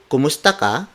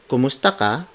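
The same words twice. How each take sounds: First: The pitch rises at the end. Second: The same.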